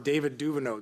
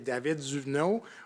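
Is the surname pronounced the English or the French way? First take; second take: English; French. First: The surname has an English pronunciation. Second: The surname has a French pronunciation. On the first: "Anglophone version" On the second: "the Francophone"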